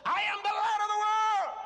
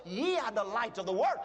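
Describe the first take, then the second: First: Much higher, loud triumphant shout; ringing, full-voiced proclamation; bold declaration. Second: Said in the usual way. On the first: Shown as a demonstration. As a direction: shout it as if you finally believe it. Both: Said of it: "How many times have you said".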